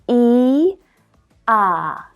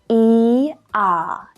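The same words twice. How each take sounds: First: The two vowels are said slowly and separately. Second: The two vowels are said quickly in succession.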